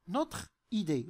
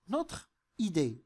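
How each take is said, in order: First: The e of notre is silent before idée. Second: The same.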